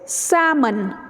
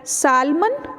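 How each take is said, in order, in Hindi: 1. बीच में L की कोई ध्वनि उच्चारित नहीं होती। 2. बीच में L की ध्वनि उच्चारित होती है। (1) "इसमें भी L साइलेंट है" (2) "एल का इंक्लूजन बीच में कर देते हैं"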